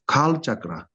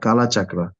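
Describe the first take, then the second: First: The first word ends without a vowel sound. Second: The first word ends with a vowel sound. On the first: It means wheel of time. The speaker calls it right. "It's kal chakra, which means wheel of time" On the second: The speaker calls it wrong.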